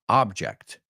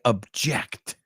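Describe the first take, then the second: First: The stress is on the first syllable. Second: The stress is on the second syllable. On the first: It names a thing. "has a stress on the first syllable" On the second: It expresses disagreement. "the second one on the last syllable"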